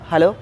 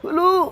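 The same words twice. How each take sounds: First: It is said in an ordinary everyday voice. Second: It is said in a put-on elderly voice. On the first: "ఇది ఒక general voice" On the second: "ముసలితనంలో"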